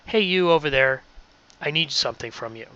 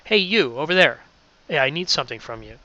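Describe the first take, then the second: First: It is read flatly, without gestures. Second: It is said animatedly, with gestures.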